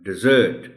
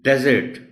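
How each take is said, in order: First: The stress is on the second syllable. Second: The stress is on the first syllable. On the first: It is the verb, to abandon someone. "एस पर stress होगा" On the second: It is the noun, a dry sandy place. "डी पर stress है, ये noun है"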